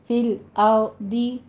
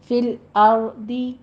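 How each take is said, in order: No difference in how they are said.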